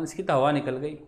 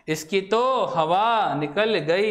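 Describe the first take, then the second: First: Said in the usual way. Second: Slow, spaced-out quoted saying; drawn-out repeat. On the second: Acted. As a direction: repeat it slowly for the class. Repeats the phrase slowly for emphasis.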